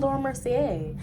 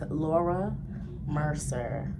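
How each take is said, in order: First: The surname ends with a 'see-ay' sound. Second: The surname ends with a 'ser' sound. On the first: The speaker calls it wrong. "I used to call it Laura Mercier" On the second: The speaker calls it right. "But it's actually not. It's Laura Mercer"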